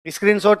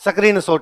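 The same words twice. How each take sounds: First: The opening s-k-r cluster is said without a vowel. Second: A vowel is inserted to break up the opening cluster. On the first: "स्क्रीन shot नहीं" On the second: "आधा सा आया था उसको आधा ही बोला है, बोला ही नहीं जाता"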